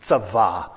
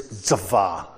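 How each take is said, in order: First: Tzavah repeated lower and slower, tsah-VAH; Hebrew word repeated. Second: Tzavah said as tsah-VAH, stress on the last syllable; Hebrew word tzavah. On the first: Preacher repeating Tzavah for the congregation, lower and slower. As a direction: say Tzavah again slowly for them to catch it. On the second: Preacher teaching the Hebrew word tzavah to the congregation, carefully pronounced. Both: Shown as a demonstration. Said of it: "the word commanded in the Hebrew is".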